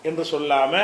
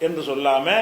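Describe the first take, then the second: The two takes are said the same way.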